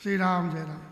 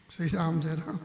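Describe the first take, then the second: No difference in how they are said.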